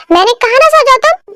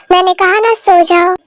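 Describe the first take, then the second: First: High, irritated insistence; exasperated order. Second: Said in the usual way. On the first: Acted. Wife ordering [name] to go to sleep, exasperated. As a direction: repeat the order with rising irritation.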